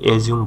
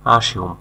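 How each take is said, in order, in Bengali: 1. এটি 'eh' দিয়ে শুরু হয় এবং এতে z ধ্বনি আছে। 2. এটি 'uh' দিয়ে শুরু হয় এবং এতে s ধ্বনি আছে। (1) "অনেকে এটাকে এজিউম বলে, এজিউম হবে না" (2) "আসিউম ধরে নেওয়া"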